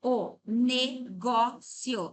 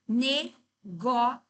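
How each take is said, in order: First: Syllable by syllable, negócio with open stressed "gó"; the usual Portuguese form, stress on "gó"; negócio with accent. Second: Syllable by syllable, Negocio with stress on the third syllable; a Portuguese variant, stress on "ci"; negocio without accent. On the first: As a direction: say negócio slowly with the stress on "gó": ne-GÓ-cio. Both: Shown as a demonstration. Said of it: "ela aceita negocio ou negócio".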